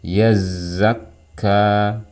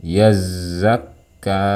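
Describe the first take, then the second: Both takes have the same delivery.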